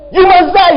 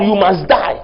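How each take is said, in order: First: You must die cried out higher and louder; emphatic higher repeat. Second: Said in the usual way. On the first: Shown as a demonstration. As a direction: lift you must die into a preacher's cry. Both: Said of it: "repeats God's command".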